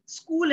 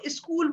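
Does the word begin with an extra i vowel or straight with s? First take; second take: straight s; extra i. First: The word begins directly with the s cluster. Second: An extra i vowel comes before the s.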